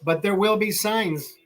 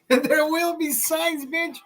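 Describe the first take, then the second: First: Said in the usual way. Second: Slow, high-pitched mock voice; goofy high echo of your own line; playful high repeat. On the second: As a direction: squeal it out, high and drawn-out.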